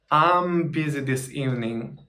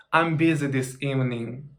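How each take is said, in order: Both takes have the same delivery.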